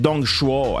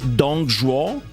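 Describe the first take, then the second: First: The second syllable starts with an SH-like sound. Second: The second syllable starts with a J-like sound. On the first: The speaker calls it wrong. "Or is it Dongshuo? ... No, that is an X" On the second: The speaker calls it right. "Is Z H like a J? So it's Dongzhuo?"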